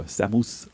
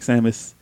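First: "Samus" with an "oo" in the ending; lower, softer "Samus", second vowel like "moose"; alternative pronunciation. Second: "Samus" with a weak, neutral second vowel; "Samus" as SAM-us, unstressed ending; first pronunciation variant. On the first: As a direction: say "Samus" as SAM-oos. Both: Shown as a demonstration. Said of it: "however you wanna say it".

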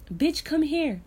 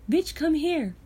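No difference in how they are said.

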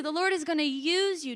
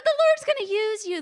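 First: Said in the usual way. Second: High and cracking, nearly in tears; tearful blessing; voice still cracking. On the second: Real, not acted. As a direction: push through the tears. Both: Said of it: "As my voice still cracks".

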